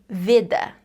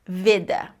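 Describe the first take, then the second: No difference in how they are said.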